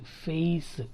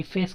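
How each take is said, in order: First: ఫేస్ as "feh-is"; two vowel sounds in ఫేస్; diphthong glide. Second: ఫేస్ with a pure e, no glide; single vowel. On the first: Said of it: "ఫేస్ కాదు". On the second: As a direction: say ఫేస్ as "fes". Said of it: "కాదు". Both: Shown as a demonstration.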